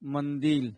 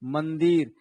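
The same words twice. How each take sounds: First: The word ends with an l sound. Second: The word ends with an r sound. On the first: This is the Khortha dialect form. "लेकिन वही खोटा हम लोग क्या हो जाता है?" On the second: This is the standard Hindi form. "Hindi में हम लोग क्या बोलेंगे?"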